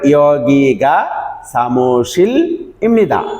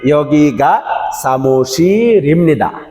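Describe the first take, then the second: First: It is said slowly with pauses between words. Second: It is said fast with the words linked.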